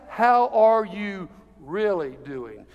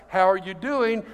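First: Slow, spaced question with weight on "really"; slow right down and lean on "really"; stress on really. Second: Said in the usual way. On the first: Shown as a demonstration. Encourager asking past a superficial greeting, slow stress on "really". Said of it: "You ask". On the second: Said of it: "you don't simply ask".

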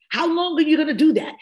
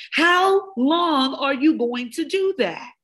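First: Higher, louder and fast, pushing hard; rapid, raised challenge; fast pressing question. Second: Slow and high, every word spelled out; deliberate, slowed challenge; slow drawn-out question. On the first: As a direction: fire the question at them quick and high. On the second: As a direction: stretch it out so each word lands. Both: Acted. Repeated question, fast then slow.

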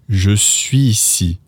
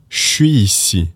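First: Slow "je suis ici" with no z before "ici"; careful "zhuh swee-see"; no liaison. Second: "je suis ici" as "shwee-see"; slang contraction. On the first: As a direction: keep "je" full, run "suis" straight into "ici". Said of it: "not even going to use". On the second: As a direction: drop the vowel of "je", start on "sh". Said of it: "to make it slang". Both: Shown as a demonstration.

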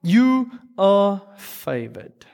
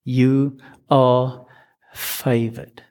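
First: You are favored, drawn out slowly with weight; slow emphasis. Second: Gentle repeat. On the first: The angel greeting Mary, slow emphasis. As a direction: announce it like the best news. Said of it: "that's what he starts with". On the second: Gabriel repeating himself to frightened Mary, gentle reassurance. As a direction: reassure a scared girl. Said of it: "Let me say that again". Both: Retold or imitated.

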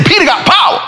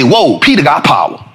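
First: High, punched-up amazement; impressed exclamation. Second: Said in the usual way. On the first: Retold or imitated. Visitor marvels at his friend's pull, high and emphatic. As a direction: lift POWER high in admiration. Repeats it louder and higher for effect.

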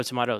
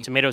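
First: Tomato said toe-MAH-toe; tomahto pronunciation. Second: Tomato said toe-MAY-toe; tomayto pronunciation. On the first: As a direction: say tomato with an open 'mah' in the middle. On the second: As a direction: say Tomato with a long 'may' in the middle. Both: Shown as a demonstration. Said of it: "tomato situation".

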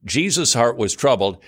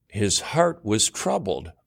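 First: "Jesus'" punched, the rest falling; stress on Jesus. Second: Slow, with "heart" leaned on and falling; stress on heart. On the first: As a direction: hit the name "Jesus'" first. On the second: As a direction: linger on "heart", soft and slow. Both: Shown as a demonstration. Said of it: "Uh-oh, we got a problem".

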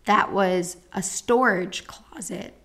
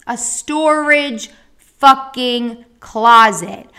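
First: Said in the usual way. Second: STORAGE FUCKING CLOSET punched out loud, word by word; slow, loud beats on "storage", "fucking", "closet"; indignant emphasis. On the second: Real, not acted. Patient repeats the outrage of the storage closet, indignant emphasis.

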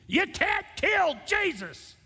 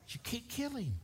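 First: Much higher and louder, slow, each word hammered; a man shouting back at a TV preacher's book title, furious; screaming at the TV. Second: Much higher but softer, pressed and intense; quiet insistence. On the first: Retold or imitated. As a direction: yell it at the television in outrage. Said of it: "I remember screaming at the T V". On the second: Acted. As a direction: drop the volume and press the point home. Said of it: "screaming at the T V".

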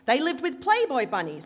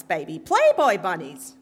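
First: Put-on Brooklyn accent, louder, "Playboy" stressed high; setting up "Playboy bunnies" in a Brooklyn accent; strident Brooklyn accent. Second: Put-on much louder Brooklyn accent, "Playboy" hammered; "Playboy bunnies" belted in a Brooklyn accent; emphatic Brooklyn repeat. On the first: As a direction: Brooklyn mama telling the scandal, "Playboy" punched. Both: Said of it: "in her strident Brooklyn accent".

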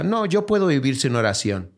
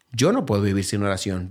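First: Lightly voiced, a hint of a proud doubter; imitating someone who says "puedo" without needing prayer; mock self-sufficient voice. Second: Said in the usual way. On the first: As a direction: quote the scoffer's claim, a touch smug. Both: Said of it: "No hay uno aquí que diga".

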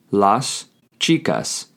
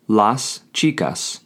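First: Slow, with a stretched final s in "chicas"; slow drawn-out repeat. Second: Slowly and clearly: las chicas; slow model pronunciation. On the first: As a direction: repeat "Las chicas" slowly, holding the last s. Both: Shown as a demonstration. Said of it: "you would say".

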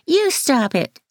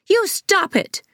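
First: High mocking effeminate voice; mock the boy in a camp high voice; teasing camp imitation; effeminate mimicking. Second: High shrill shriek of protest; high-pitched childish shriek. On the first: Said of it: "In an effeminate voice". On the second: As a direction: shriek it like a furious kid. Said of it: "Devon shrieked". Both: A narrator's reading.

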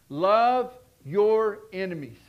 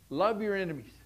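First: Love your enemies, drawn out slowly and louder, Love stressed; slow loud proclamation. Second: Said in the usual way. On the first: Shown as a demonstration. Preacher announcing his third point to the church, slow and loud. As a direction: proclaim it word by word. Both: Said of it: "Listen to number three".

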